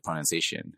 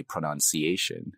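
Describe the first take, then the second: First: "pronunciation" in a Canadian accent. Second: "pronunciation" in a Nigerian accent, syllables sounded out. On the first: Showing interviewer the word as said in Canada, Canadian accent. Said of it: "in Canada, it'd be". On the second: Showing interviewer the word as said in Nigeria, Nigerian accent. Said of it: "in Nigeria, you say pronunciation". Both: Shown as a demonstration.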